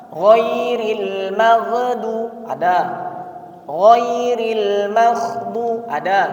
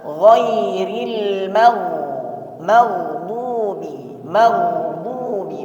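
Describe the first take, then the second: First: "maghdu" cut short with a stop; wrong clipped reading. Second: "maghdubi" slow, the gh flowing; flowing ghain. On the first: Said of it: "Padahal yang benar". ("ghairil maghdu ada" dibaca salah) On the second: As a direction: let the gh in "maghdubi" flow. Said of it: "Jadi dialirkan suaranya". ("maghdubi" dengan suara dialirkan) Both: Shown as a demonstration.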